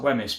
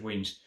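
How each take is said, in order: First: The name is said as it is spelled. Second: The name is said as one syllable, 'Weems'. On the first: The speaker calls it wrong. "It looks like Wemyss" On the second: The speaker calls it right. "I'm pretty sure it's Weems"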